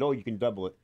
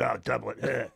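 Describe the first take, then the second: First: Said in the usual way. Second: Delivering his line. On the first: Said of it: "Chris Rock said". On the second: Retold or imitated. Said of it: "I just said".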